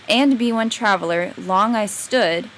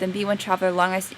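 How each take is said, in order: First: A pause comes after 'traveler'. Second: No pause comes after 'traveler'. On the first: The speaker calls it right. "I would read with the natural pauses" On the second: The speaker calls it wrong. "I wouldn't read it like that"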